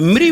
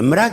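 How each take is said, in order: First: The syllable is said with an 'i' vowel. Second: The syllable is said with an 'a' vowel. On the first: The speaker calls it right. "तो मृ बोला ना" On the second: The speaker calls it wrong. "तो मरा क्यों बोल रहे?"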